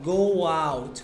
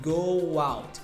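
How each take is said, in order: Both takes have the same delivery.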